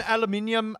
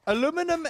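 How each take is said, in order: First: Aluminium said al-yoo-MIN-ee-um; British aluminium. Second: Aluminum said a-LOO-mi-num; American aluminum. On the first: Streamer comparing versions, aluminium as al-uh-MIN-ee-um. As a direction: stress MIN in aluminium, five beats. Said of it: "I find it as aluminium". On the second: Streamer comparing versions, aluminum as a-LOO-mi-num. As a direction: say aluminum in four beats, stress LOO. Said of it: "Aluminum just sounds stupid". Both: Shown as a demonstration.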